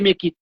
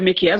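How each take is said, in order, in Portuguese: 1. O nome termina em vogal, sem "s". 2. O nome termina com um som de "s" audível. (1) "mas se lê Mequi" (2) "se escreve Mequies"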